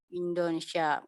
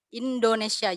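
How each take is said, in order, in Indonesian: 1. Suku katanya digumamkan dan saling menyambung. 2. Setiap suku kata diucapkan dengan jelas dan penuh.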